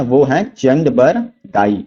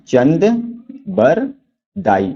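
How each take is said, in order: First: Said in the usual way. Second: चंद, बर, दाई each said alone with a pause between; teacher spacing out चंद बर दाई for students to memorise; syllables apart. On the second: Shown as a demonstration. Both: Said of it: "याद रखेंगे, कौन है?".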